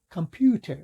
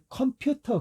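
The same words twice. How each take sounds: First: The first vowel is reduced to a schwa. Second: The first vowel is said fully and clearly. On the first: The speaker calls it right. "근데 컴퓨터 이렇게 발음하거든요" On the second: The speaker calls it wrong. "우리 컴퓨터 그러잖아요"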